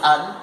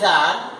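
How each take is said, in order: First: The vowel is reduced to a schwa. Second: The vowel is full and clearly pronounced. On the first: "weak is an" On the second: "strong is an"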